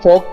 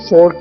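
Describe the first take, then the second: First: It is said in a British accent. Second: It is said in an American accent. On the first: "British English में फॉर्क कहते हैं" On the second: "American English में फोर्क कहते हैं"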